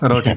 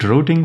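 First: The word is said with an American pronunciation. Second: The word is said with a British pronunciation. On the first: "Routing for Americans" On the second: "Is it routing for British people?"

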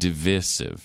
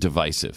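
First: The stressed vowel sounds like 'ih' in divid. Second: The stressed vowel sounds like 'eye' in divide. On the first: The speaker calls it wrong. "I don't know why it became divisive" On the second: The speaker calls it right. "It was a root of divide, not divid"

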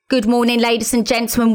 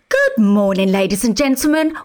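First: The pitch stays plain and speech-like. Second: The pitch swoops up and down melodically. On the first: "Instead of going" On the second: "this is the singing voice. This is what air hostesses do, sing"

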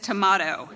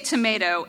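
First: The word is said with a British accent. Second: The word is said with an American accent. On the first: "the third one sounds completely British" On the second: "two of our kids have American accents"

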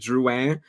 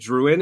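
First: The name is said with a French accent. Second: The name is said with an English accent. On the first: "you're saying Drouin, like giving me the French accent" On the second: "how I said Drouin"

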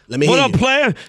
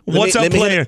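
First: It is said in an exaggerated, put-on street voice. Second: It is said in a normal, ordinary voice.

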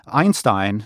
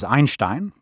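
First: The name is said with an American pronunciation. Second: The name is said with a non-American pronunciation. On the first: This is the familiar version most listeners recognize. The speaker calls it wrong. "is how Americans say the name" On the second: This is the original version few listeners would recognize. The speaker calls it right. "The correct pronunciation is Einstein"

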